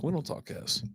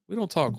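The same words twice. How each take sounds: First: "We don't talk S." whispered with no voice; hushed whisper. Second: Said in the usual way. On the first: Real, not acted. Repeats line, second time hushed.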